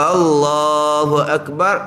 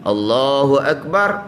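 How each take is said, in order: First: The first vowel of Allahu is drawn out long. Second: The first vowel of Allahu is short. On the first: It asks whether God is the greatest. The speaker calls it wrong. "itu bit hamzah istifham" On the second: God is the greatest. The speaker calls it right. "Allah Maha Besar"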